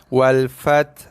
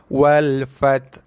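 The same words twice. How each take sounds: The two takes are said the same way.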